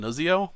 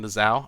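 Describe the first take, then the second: First: The name is said in a personal variant, Nuzio. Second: The name is said in its accepted form, Nizao. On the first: This is the speaker's own preferred way of saying it. "I like to call him Nuzio" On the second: This is the pronunciation others say is correct. "I've been told it's Nizao"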